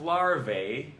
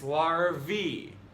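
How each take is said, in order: First: The ending does not rhyme with Humvee. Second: The ending rhymes with Humvee, like vee. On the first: The speaker calls it wrong. "It's not larvae" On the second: The speaker calls it right. "Rhymes with Humvee"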